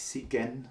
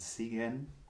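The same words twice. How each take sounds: First: The G sound is hard. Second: The G sound is soft. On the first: The speaker calls it wrong. "also nicht" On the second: The speaker calls it right. "G ist weich"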